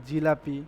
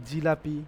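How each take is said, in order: The two takes are said the same way.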